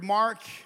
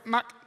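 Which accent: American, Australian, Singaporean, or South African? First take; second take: American; Singaporean. First: The word is said in an American accent. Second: The word is said in a Singaporean accent. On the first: "If you're from America" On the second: "If you're from Singapore"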